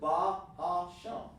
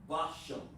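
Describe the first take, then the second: First: Each syllable is said separately with breaks. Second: The syllables run together without any break. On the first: The speaker calls it right. "break the word down" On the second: The speaker calls it wrong. "without any break"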